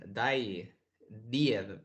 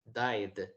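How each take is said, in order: First: 'died' misread in two syllables, die-ed; wrong pronunciation demo. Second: 'Died' in one syllable, ending in D; correct pronunciation demo. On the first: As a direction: sound out the -ed in 'died' as a separate syllable. ('died' mal leído, en dos sílabas: dai-ed) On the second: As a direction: say 'Died' as daid, no extra vowel. ('Died' bien pronunciado, en una sílaba: daid) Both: Shown as a demonstration. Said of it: "No lo vamos a leer así".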